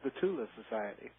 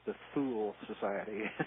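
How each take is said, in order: First: Thule is pronounced in the German way. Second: Thule is pronounced in an anglicized way. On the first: The speaker calls it right. "but it's, it's the Thule Society" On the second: The speaker calls it wrong. "as people often mispronounce it"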